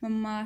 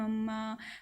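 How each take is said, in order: First: It is said plainly, without pleading. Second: It is said pleadingly, as when wanting something.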